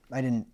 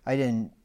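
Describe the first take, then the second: No difference in how they are said.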